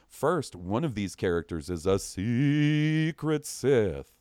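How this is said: It is read in a spooky voice.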